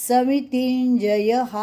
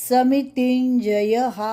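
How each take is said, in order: Both takes have the same delivery.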